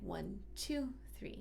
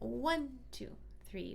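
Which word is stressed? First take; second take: two; one. First: The stress falls on the word two. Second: The stress falls on the word one. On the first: This is the saraband rhythm leaning toward the second beat. "in the saraband we want to feel it more like" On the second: This is an ordinary triple meter. "typically in three four we think"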